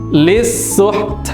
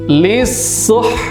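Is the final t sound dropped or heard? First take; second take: heard; dropped. First: The final t sound is clearly heard, breathy. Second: The final t sound is dropped completely. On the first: The speaker calls it right. "kita munculkan sifat hamesnya" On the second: The speaker calls it wrong. "taknya itu sama sekali tidak terdengar suaranya"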